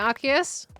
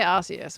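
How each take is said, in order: First: The C is pronounced as a hard K sound. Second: The C is pronounced as a soft S sound. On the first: "Hard C" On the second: "which doesn't really sound right"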